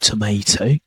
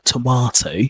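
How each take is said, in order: First: It is said in an American accent. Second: It is said in a British accent.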